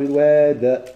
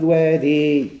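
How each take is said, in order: First: The word ends without a final long vowel. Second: The word ends with a long 'ee' vowel. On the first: The reciter is pausing and drops the final letter. "هذه قراءه قنبول" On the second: The reciter is pausing and keeps the final letter. "جابوا صخب الوادي قراءة قنبول"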